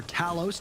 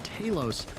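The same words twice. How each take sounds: First: Talos with its emphasis shifted; alternative stress. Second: Said in the usual way. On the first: Shown as a demonstration. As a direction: offer the other pronunciation of Talos. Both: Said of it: "where you put the emphasis".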